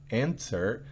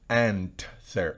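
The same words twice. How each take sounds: First: A very soft T sound is heard. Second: The T sound is strongly emphasized. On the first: The speaker calls it right. "se oye como una T, en verdad que sí, pero una T muy suave" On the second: The speaker calls it wrong. "no seamos tan enfáticos en la T"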